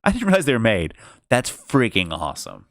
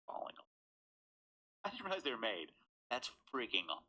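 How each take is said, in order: First: Said in the usual way. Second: Much softer retake; quiet repeat. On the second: Real, not acted. A reader repeating his point much more softly. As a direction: say it again under the breath. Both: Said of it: "She's falling all over shit".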